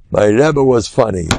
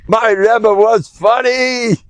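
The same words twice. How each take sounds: First: Said in the usual way. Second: Higher, slow and savoring; a touch of the old rabbi's chuckling fondness; fond amused quote. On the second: Retold or imitated. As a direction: draw it out with delight, mimicking the old rabbi. Quoting the rabbi's fond memory.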